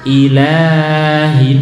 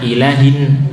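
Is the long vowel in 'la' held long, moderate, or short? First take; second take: long; short. First: The 'la' vowel is held far too long. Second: The 'la' vowel is cut too short. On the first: "nah terlalu panjang ya" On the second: "Atau tidak panjang, ... ini juga salah"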